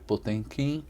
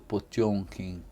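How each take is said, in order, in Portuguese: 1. O nome é lido exatamente como está escrito. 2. A sílaba do meio é dita de forma diferente da escrita. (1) "A gente escreve Potemkin" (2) "a pronúncia correta é"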